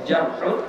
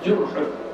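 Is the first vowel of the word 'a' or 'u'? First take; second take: a; u. First: The first vowel is an open 'a'. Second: The first vowel is a rounded 'u'. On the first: "boleh jarhun" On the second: "boleh jurhun"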